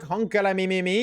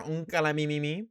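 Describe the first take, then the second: First: Hyped catchphrase. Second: Said in the usual way. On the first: Acted. Catchphrase in hype outro.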